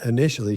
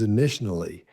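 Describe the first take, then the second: First: The word is said as plain 'initially'. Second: The word blends 'intentionally' into 'initially'. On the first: The speaker calls it right. "instead of saying in, initially" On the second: The speaker calls it wrong. "she's combined intentionally and initially together"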